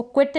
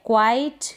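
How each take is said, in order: First: क्विट said with a short i; wrong vowel demo. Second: क्वाइट said with the diphthong ai; correct pronunciation. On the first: Teacher warns students against the short i, क्विट. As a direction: shows the mistaken reading क्विट. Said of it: "इसको क्विट ना पढ़ें". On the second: Teacher models the right ai sound, क्वाइट. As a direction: clear model of क्वाइट with an ai glide. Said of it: "next है क्वाइट". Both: Shown as a demonstration.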